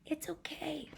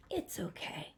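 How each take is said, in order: First: Gentle consoling whisper; soft whisper. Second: Said in the usual way. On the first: Acted. Monster comforting crying Sam, whispered. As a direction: comfort him in a hush. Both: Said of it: "That's what he says to Sam".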